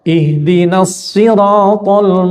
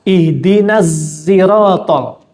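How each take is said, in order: First: Sirat begins with a heavy emphatic s sound. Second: Sirat begins with a voiced z-like sound. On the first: This is one accepted reading of the verse. "Yang pertama pakai shad" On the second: This is a third accepted reading of the verse. "Itu dibaca dengan za"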